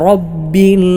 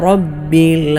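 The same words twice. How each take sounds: No difference in how they are said.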